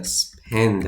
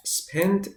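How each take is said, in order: First: "spend" said slowly, ending on a clear d; base form slowly. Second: "spent" lifted high with a rising tune; past form stressed. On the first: Teacher gives the present form "spend" after "spent". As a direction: stretch "spend" out gently. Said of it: "spend هست". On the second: Teacher stresses "spent" to show it is the past tense. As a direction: mark the final t in "spent" clearly. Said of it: "spent گذشتهٔ فعل". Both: Shown as a demonstration.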